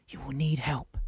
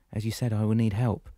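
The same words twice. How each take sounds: First: Solangi's voice. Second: Said in the usual way. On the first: Acted. Solangi speaks, voiced figure.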